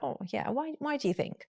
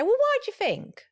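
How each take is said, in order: First: Soft, kind "why do you think"; "why" soft and caring; gentle tone. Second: High, pointed "why"; "Well, why do you think?" with a challenging "why"; sharp tone. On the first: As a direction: ask it gently, quieter. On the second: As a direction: snap the question with an edge. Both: Shown as a demonstration. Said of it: "Tone is important".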